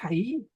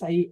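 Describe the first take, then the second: First: The word starts with a breathy h sound. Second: The word starts directly with the vowel. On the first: The speaker calls it right. "es ahí. Jai cardiai" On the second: The speaker calls it wrong. "No es ahí"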